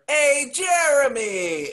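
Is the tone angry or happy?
happy. It sounds happy.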